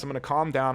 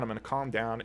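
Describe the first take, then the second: First: Said in the usual way. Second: Softer and lower, settling yourself; calming down. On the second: Real, not acted. Vlogger calming himself after a rant, quiet. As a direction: breathe it out and cool off, much softer.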